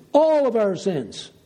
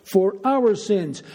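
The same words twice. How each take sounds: First: "All" pitched up and punched, then falling away; stress on All. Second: Slow, with "our" as the weighted word; stress on our. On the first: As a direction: hit the word "All" firmly. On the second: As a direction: lean on "our" in a slow phrase. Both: Real, not acted. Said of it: "Why am I emphasizing that?".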